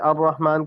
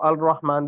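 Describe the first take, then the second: First: The l merges into a doubled r sound. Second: The l is pronounced before the r. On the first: The speaker calls it right. "अर रहमान लाम गायब हो गया, मुदगिम हो गया" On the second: The speaker calls it wrong. "लोग पढ़ते हैं... लोग गलती कर जाते हैं"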